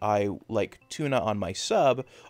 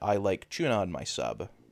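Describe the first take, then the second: First: Tuna begins with a plain t sound. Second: Tuna begins with a ch sound. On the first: "if I say I like tuna on my sub" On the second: "I'll tend to say"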